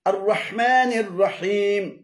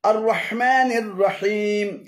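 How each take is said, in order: No difference in how they are said.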